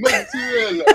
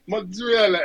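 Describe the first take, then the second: First: Mock Italian accent on Mozzarella, much higher and falling. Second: Mock Italian accent on Mozzarella, higher and falling. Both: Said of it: "I was mocking their accent".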